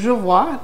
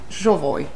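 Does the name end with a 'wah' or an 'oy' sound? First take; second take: wah; oy. First: The name ends with a French 'wah' sound. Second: The name ends with an 'oy' sound. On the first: It follows ordinary French spelling rules. The speaker calls it wrong. "French people would say je vois naturally because that's the, the pronunciation in French for most words finishing in O and, and Y" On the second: It follows the founder's name. The speaker calls it right. "we came to suspect that actually you pronounce it Jovoy"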